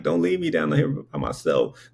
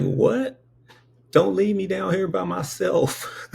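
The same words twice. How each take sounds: First: Said in the usual way. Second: High, pleading 'What? Don't leave me down here by myself.'; pleading baby. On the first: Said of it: "I'm like". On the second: Retold or imitated. Baby begging the angels not to leave, high pleading. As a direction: beg them not to go, in a much higher voice. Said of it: "And I was like".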